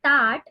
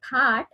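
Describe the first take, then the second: First: "tat" with a hard unaspirated t; tongue to the teeth, no puff on "tat"; Marathi t sound. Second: "that" with an aspirated th, a little air burst; Marathi aspirated th. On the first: Therapist contrasting Marathi sounds, plain t. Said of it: "when I am saying". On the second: Therapist contrasting Marathi sounds, aspirated th. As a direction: breathe out on the "th" of "that". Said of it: "I'm giving example in Marathi". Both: Shown as a demonstration.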